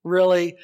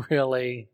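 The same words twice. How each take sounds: First: A much louder incredulous really; loudly scoffing at an impossible promise; loud mock disbelief. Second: A laughing, doubtful really; half-laughing at the debtor's promise; amused disbelief. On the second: Real, not acted. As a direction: chuckle it out in disbelief. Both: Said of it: "laughs, then repeats it loud".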